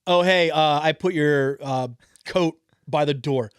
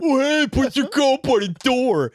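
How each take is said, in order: First: It is said in a normal speaking voice. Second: It is said in a mocking put-on voice.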